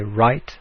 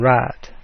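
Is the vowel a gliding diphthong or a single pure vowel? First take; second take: diphthong; pure vowel. First: The vowel glides, like 'eye'. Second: The vowel is a single flat 'ah'. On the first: "in Standard English, you'd say right and time"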